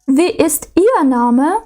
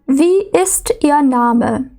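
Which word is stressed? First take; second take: Ihr; ist. First: The stress is on the word ihr. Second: The stress is on the word ist. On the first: The name of one particular person in a group is wanted. "Тут ми наголошуємо вже «ihr»" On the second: A plain question asking for the name. "У W-Fragen зазвичай наголошується дієслово і інтонація йде вниз"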